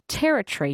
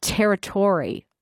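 First: "territory" with a reduced TUH-ree ending; "territory" with no full TOR sound; common pronunciation. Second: "territory" slowly, as terri-TOR-ee; "territory" drawn out, ending like "Tory"; full TORY ending. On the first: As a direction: say "territory" as TERR-uh-tree, unstressed ending. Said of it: "commonly pronounced territory". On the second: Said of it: "initial typing of your message". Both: Shown as a demonstration.

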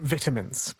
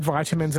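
First: "vitamins" with first syllable rhyming with "bit"; English-style "vitamins", starting VIT; short-i pronunciation. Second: "vitamins" starting like "vital"; Australian-style "vitamins", first syllable rhyming with "eye"; long-i pronunciation. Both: Shown as a demonstration. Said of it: "glad you said vitamins and not vitamins".

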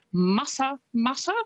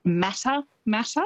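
First: Mata Mata as MUTTA-MUTTA, raised pitch; Maori-style Mata Mata, no 'cat' vowel; correct Maori pronunciation. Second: Mata Mata as MATTA-MATTA, 'a' as in 'cat'; anglicised Mata Mata, rhyming with 'matter'; common mispronunciation. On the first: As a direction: say Mata Mata with open vowels as in 'mutter'. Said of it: "but it's Mata Mata". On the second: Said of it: "people will pronounce it". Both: Shown as a demonstration.

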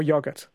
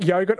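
First: "yogurt" with a short o, YOG-urt; short-o pronunciation. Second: "yogurt" with a long o, YOH-gurt; long-o pronunciation. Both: Shown as a demonstration. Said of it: "yogurt or yogurt?".

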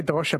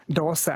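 First: "dosha" pronounced with sh in the middle. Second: "dosa" pronounced with s in the middle. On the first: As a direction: say "dosha" as doh-sha. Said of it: "Yes, we say dosha". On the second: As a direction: give "dosa" a plain s sound. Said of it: "people down south in Kerala say". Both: Shown as a demonstration.

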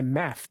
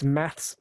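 First: "math" with no final S; American singular math. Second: "maths" with a final S; plural maths. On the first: Retold or imitated. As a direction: end "math" on the TH. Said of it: "It's maths". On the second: Shown as a demonstration. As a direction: add an S after TH in "maths". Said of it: "It's maths, plural".

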